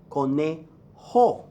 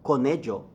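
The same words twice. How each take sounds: First: "conejo" slowly split, ending in breathed "ho". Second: "conejo" with an English J or ZH; wrong J sound. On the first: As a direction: say "conejo" as co-NAY... ho. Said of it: "gives you the H sound". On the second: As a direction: say "conejo" as co-NAY-jo. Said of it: "not yo". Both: Shown as a demonstration.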